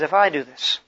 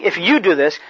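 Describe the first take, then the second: First: "I" stressed, said softer and lower. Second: "you" stressed, pointing outward. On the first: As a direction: put the weight on "I", pointing at yourself. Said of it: "He says". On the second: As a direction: lean on the word "you" as if pointing at Peter. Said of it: "he isn't saying". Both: Shown as a demonstration.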